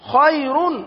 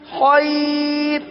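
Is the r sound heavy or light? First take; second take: heavy; light. First: The r is said heavy and full, with tanween. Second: The r is said thin and light, as a pause. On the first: The word is read in continuous recitation. "را پر دو پیش کی تنوین وہ ہم نے پڑھی، تو اب را کو کیا پڑھیں گے؟ پر پڑھیں گے" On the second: The reciter stops on the word. "لیکن اگر ہم نے کر دیا وقف خیر، تو اب را کو کیا پڑھیں گے؟ باریک پڑھیں گے"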